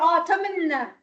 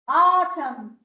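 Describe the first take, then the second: First: The final n is pronounced. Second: The final n is silent. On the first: The speaker calls it wrong. "You don't say autumn" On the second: The speaker calls it right. "Silent consonant"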